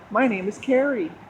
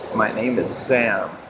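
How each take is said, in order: First: A more varied voice rises at the end. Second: A flatter, deeper voice falls at the end.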